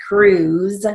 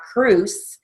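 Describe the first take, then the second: First: "cruise" ending in a buzzing, voiced Z; final Z sound. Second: "cruise" ending in a hissed, voiceless S; final S sound. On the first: Steno teacher correcting the ending for students, voiced Z on "cruise". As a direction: say "cruise" with a long U and a Z at the end, "crooz". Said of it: "long U with the final Z". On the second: Steno teacher showing students the wrong ending, voiceless S on "cruise". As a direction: say "cruise" with an unvoiced S at the end, like "croose". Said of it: "It's not cruise". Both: Shown as a demonstration.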